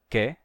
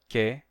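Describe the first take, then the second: Both takes have the same delivery.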